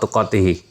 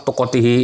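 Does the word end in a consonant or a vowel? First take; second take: consonant; vowel. First: The word ends on the consonant h. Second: The word ends with an added i vowel. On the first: The speaker calls it right. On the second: The speaker calls it wrong.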